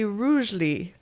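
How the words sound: The name is said with a British accent.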